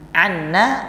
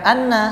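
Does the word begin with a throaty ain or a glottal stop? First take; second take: ain; glottal stop. First: The word begins with a throaty ain sound. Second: The word begins with a glottal stop. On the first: It means 'from us'. The speaker calls it wrong. "anna artinya dari kami" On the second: It means 'indeed'. The speaker calls it right. "sedangkan anna sesungguhnya"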